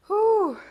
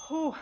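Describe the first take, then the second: First: High, loud puff of breath after effort; loud whew. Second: Said in the usual way. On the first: Real, not acted. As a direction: blow it out hard and high like you're spent. Exhale after hard set.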